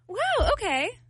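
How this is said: It sounds warm and supportive.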